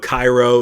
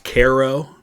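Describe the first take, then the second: First: It is said the Egyptian way, not the river-town way. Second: It is said the river-town way, not the Egyptian way. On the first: It names the city in Egypt. "Cairo is what we call the city that is spelled that way in Egypt" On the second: It names the town at the Mississippi and Ohio junction. "it's actually pronounced Cairo"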